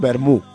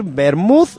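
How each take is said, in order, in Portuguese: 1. A palavra termina com um som de vogal. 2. A palavra termina com um som de consoante final. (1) "dices Vermú" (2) "podrías decir Vermouth"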